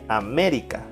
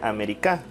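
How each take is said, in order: First: The stress is on the second syllable. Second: The stress is on the fourth syllable. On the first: "Si es en me" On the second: "Y si fuera en K"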